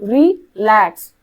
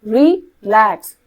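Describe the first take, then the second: The two takes are said the same way.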